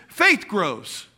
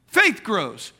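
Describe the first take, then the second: No difference in how they are said.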